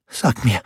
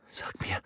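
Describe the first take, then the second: First: Voiced, higher urgent stammer. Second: Breathless whispered stammer. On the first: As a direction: push the words out pleading. (flehendes Stammeln) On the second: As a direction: choke out the words barely audible. (gestammeltes Flüstern) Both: A narrator's reading. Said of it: "stammelte sie".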